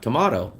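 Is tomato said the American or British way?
British. Tomato is said with a British pronunciation. The speaker calls it wrong. "the U K people pronounce it tomato. It's not tomato"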